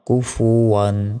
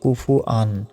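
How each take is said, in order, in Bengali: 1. শেষ অংশ 'wan', এতে 'w' উচ্চারণ আছে। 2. শেষ অংশ 'an', এতে 'w' উচ্চারণ নেই। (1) "ওয়াও দুই জবর কি হয় ওয়ান, আন নয়" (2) "আমরা অনেকে এখানে ভুল উচ্চারণ করি, বলি যে কুফু আন, আন কিন্তু নাই।"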